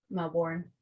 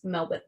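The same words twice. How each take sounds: First: "Melbourne" with a full "-born" ending; spell-it-out "Melbourne", rhyming the end with "born"; wrong pronunciation. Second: "Melbourne" as MEL-bn, no r; "Melbourne" with the second syllable reduced, r dropped; local pronunciation. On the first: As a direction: say "Melbourne" as MEL-born, r sounded. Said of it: "It's not Melbourne". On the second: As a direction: say "Melbourne" with a swallowed "-bun" ending. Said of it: "it's Melbourne". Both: Shown as a demonstration.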